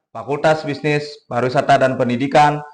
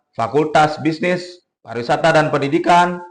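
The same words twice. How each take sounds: The two takes are said the same way.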